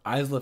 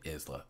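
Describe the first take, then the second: First: "Isla" said EYEZ-luh; first syllable of "Isla" like "eyes"; Isla with long i. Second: "Isla" said IZ-luh, low and soft; first syllable of "Isla" like "is"; Isla with short i. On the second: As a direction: quietly try "Isla" with a short i. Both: Real, not acted. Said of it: "Is her name?".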